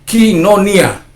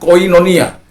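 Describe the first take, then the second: First: The first syllable is said like 'kee'. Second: The first syllable is said like 'koy'. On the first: "Omicron ketemu iota ... menjadi i. Jadi kinonia" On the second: "Udah terbiasa mulut saya mengatakan koinonia"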